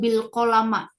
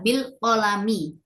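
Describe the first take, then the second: First: The last word ends with an 'a' vowel. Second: The last word ends with an 'i' vowel. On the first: The speaker calls it wrong. "itu tidak tepat ya" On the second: The speaker calls it right. "Yang tepat adalah bil kolami"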